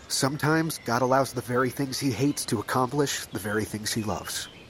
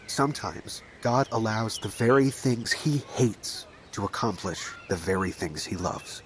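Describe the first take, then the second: First: It is said at a normal speed. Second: It is said slowly.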